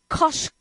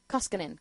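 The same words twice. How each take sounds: First: "Koskinen" broken into halting pieces, with a sh sound; stumbled pronunciation. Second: "Koskinen" said in one go, as KOS-kin-en; low, smooth "Koskinen", stressed on the first syllable; practised pronunciation. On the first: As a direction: fumble through "Koskinen" syllable by syllable. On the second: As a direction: softly try out "Koskinen" with a plain s. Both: Real, not acted. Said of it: "How do you say that?".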